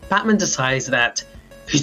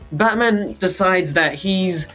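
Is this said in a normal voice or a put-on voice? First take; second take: put-on; normal. First: It is said in a put-on character voice. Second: It is said in the speaker's normal voice.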